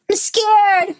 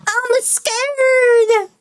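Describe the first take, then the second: First: Put-on scared child. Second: Higher, wailing "I'm scared" with a long fall; little kid wailing "scared" the second time; scared child, more insistent. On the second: Acted. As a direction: push the repeat further into fear. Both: Child repeats fear, building.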